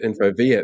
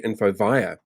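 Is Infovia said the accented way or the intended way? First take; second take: intended; accented. First: The name is said with the company's intended vowels. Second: The name is said with the speaker's accented vowels. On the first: The speaker calls it right. "instead of Infovia" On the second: The speaker calls it wrong. "my accent makes me say Infovia"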